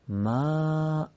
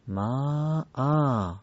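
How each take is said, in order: First: The word ends short with no lengthened vowel. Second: The word ends with a lengthened 'aa' vowel. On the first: The speaker calls it wrong. "در وقف میشه ما یا ما آ" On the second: The speaker calls it right. "قطعا دومی درسته"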